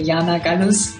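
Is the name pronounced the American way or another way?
another way. The name is said with a non-American pronunciation. This is how the name's owner says it. "I'd say"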